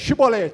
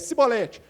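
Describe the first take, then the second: First: The word is said without an Ephraimite accent. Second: The word is said with an Ephraimite accent. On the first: The speaker passes the accent test. The speaker calls it right. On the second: The speaker fails the accent test. The speaker calls it wrong.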